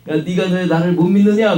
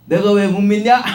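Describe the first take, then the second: First: A louder, raised rebuke; stern rebuke. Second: Higher, louder indignant comeback; defiant retort. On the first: Jesus rebuking the unbelieving listeners, stern and raised. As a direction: scold them for their unbelief. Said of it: "못 믿는 것을 책망하는 말". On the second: The Pharisee snapping back at Jesus, indignant and raised. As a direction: throw the question back at him. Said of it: "라고 하면은". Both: Retold or imitated.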